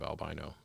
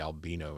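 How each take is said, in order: First: It uses the speaker's own usual pronunciation. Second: It uses the European and African pronunciation. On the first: The speaker calls it right. "instead of albino, but they're just wrong" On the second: The speaker calls it wrong. "my friends in uh, Africa and Europe and other places will say albino"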